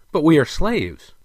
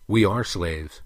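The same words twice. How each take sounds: First: High, loud protest; protesting retort. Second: Even, measured agreement; agreeing. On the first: Prince retorts to the king, protesting. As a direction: plead the objection, less defiant. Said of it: "retorted with less defiance than before". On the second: King agrees with his son, sober and measured. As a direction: concede it soberly. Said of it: "the king agreed". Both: A narrator's reading.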